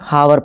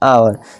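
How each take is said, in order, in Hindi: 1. इस शब्द की शुरुआत में h की आवाज़ सुनाई देती है। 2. इस शब्द की शुरुआत सीधे स्वर से होती है। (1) "कुछ बच्चे क्या कहते हैं, हावर पढ़ते हैं" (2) "साइलेंट रहता है"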